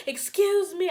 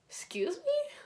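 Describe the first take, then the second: First: High, louder call after him; yelling excuse me. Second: High breathy whispered disbelief; whispered excuse me. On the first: Chasing the boyfriend down the hallway, a high yell. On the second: To the cheating boyfriend, a high whispered excuse me. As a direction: hiss it under your breath, stunned. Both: Retold or imitated.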